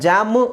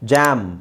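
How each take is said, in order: First: An extra vowel is added after the final m. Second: The word stops right on the final m. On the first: The speaker calls it wrong. "ನಾವು ಇದನ್ನು ಜಾಮು ಅಂತ ಹೇಳ್ತೀವ" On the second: The speaker calls it right. "ಅಲ್ಲಿಗೆ ನಿಲ್ಲಿಸ್ತೀವಿ"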